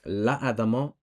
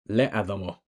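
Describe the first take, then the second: First: The first vowel is 'a'. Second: The first vowel is 'e'. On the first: The speaker calls it right. "Notice how it's la'adamo" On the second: The speaker calls it wrong. "and not le'adamo"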